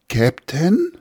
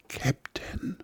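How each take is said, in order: First: It is called louder, with rising volume. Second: It is called very quietly.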